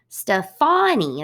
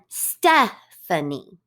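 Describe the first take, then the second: First: The stress is on the second syllable. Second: The stress is on the first syllable. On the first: This is the way the name is said in France. "they put the emphasis on the second syllable" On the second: This is the usual English way of saying the name. "We put our emphasis on the first syllable"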